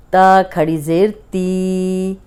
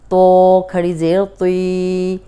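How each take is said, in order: First: ती drawn out slowly and thin; drilled letter sounds. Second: तुई said slowly, full and rounded; heavy letter drill. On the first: Teacher drilling students on the thin ती sound. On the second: Teacher contrasting heavy तुई with thin ती. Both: Shown as a demonstration. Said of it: "अब देखिए कितना फ़र्क है".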